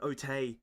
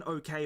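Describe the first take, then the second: First: "Otay" with a t in place of the k, falling; childish otay. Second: Said in the usual way. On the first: Shown as a demonstration. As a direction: lisp "Otay" like a small child. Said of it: "Not even okay, but". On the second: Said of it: "Not even okay".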